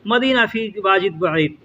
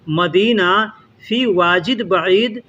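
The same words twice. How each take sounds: First: The phrase is spoken quickly and run together. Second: The phrase is spoken slowly and deliberately. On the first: It is how people actually speak in conversation. "वो जल्दी जल्दी बोलेगा" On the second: It is said slowly for learners to follow. "हम यहाँ धीरे धीरे से बोल के समझा रहे हैं"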